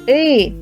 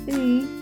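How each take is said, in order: First: The vowel is said loudly. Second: The vowel is said quietly. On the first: "чим вище будемо підніматися, тим голосніше будемо його промовляти" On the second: "Внизу ми будемо промовляти звук «и» тихо"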